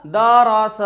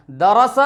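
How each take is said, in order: First: दरस dragged out as daa-raa-saa; slow, drawn-out दरस; wrongly stretched vowels. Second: दरस in three short syllables; crisp, quick दरस; short vowels, read quickly. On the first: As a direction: hold each vowel of दरस long. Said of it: "गलत तरीका". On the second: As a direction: say दरस briskly without stretching. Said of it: "सही तरीका". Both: Shown as a demonstration.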